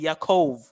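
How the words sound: The name ends with a v sound. This is the Yiddish way of saying it. "in the Yiddish, when they say Jacob, they'll say Yaakov. They'll put the V's"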